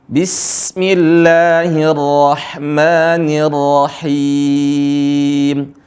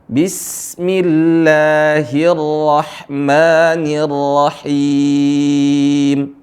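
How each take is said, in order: No difference in how they are said.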